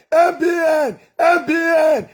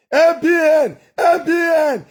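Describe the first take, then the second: No difference in how they are said.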